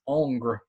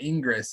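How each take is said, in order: First: The name ends with an r sound. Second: The name ends with an s sound. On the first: The speaker calls it right. "It's like angry without the e" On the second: The speaker calls it wrong. "it's not Ingress"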